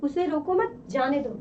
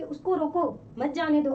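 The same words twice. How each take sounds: First: "रोको मत" as one phrase, then "जाने दो"; pause after मत. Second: "मत" grouped with "जाने दो" after a break; pause after रोको. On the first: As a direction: attach "मत" to "रोको" and break before "जाने दो". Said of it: "और इसमें कहा जा रहा है". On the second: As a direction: stop after "रोको", then say "मत जाने दो" together. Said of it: "ये किसी व्यक्ति के लिए कहा जा रहा है कि". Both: Shown as a demonstration.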